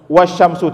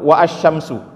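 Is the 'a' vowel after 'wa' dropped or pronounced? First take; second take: dropped; pronounced. First: The 'a' after 'wa' is dropped and joined. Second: The 'a' after 'wa' is pronounced separately. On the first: The speaker calls it right. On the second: The speaker calls it wrong.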